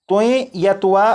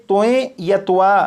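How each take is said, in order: No difference in how they are said.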